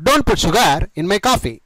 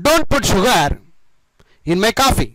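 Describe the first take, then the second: First: Slowly, word by word for learners; slow model sentence. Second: Said in the usual way. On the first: Shown as a demonstration. Teacher modelling the sentence for students, very slow. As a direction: spell it out slowly so students can copy. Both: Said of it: "ఈ విధంగా చెప్పండి".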